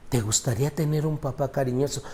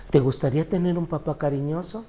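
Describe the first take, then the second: First: Softer, gentle asking; a soft pastoral question. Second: Raised, urging repeat of the question; an insistent pastoral appeal; pressing question. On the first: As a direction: ask it quietly, inviting reflection. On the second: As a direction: push the question home to the crowd. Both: Shown as a demonstration.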